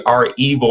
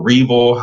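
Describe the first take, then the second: First: "R-Evil" said as the letter R, then the word evil; pronunciation variant. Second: "Revil" run together as one word; alternative pronunciation. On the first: Presenter offering a hacker group's name, "R-Evil" split as R plus evil. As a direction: say "R-Evil" in two parts, R and evil. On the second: Presenter offering another reading of the group's name, "Revil" as one joined word. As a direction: say "Revil" as a single name, no separate letter R. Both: Shown as a demonstration. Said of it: "however you wanna pronounce it".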